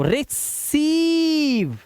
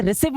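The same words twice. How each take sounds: First: रिसीव with a stretched "seeev"; slow model of रिसीव with long "ee"; long vowel sound. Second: रिसीव with a short "siv"; misreading demo, रिसीव said as "re-siv"; wrong short vowel. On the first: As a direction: hold the सी of रिसीव long and high. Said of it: "long vowel sound देना है". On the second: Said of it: "अब इसे रिसीव मत बोलना". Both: Shown as a demonstration.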